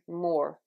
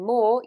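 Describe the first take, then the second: First: The final R sound is clearly pronounced. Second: The final R sound is dropped. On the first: "you'll be saying more" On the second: "You won't be saying more"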